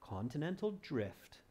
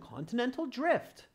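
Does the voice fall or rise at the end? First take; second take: falls; rises. First: The pitch falls at the end. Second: The pitch rises at the end. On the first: "will end with a deflection" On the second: "or an inflection"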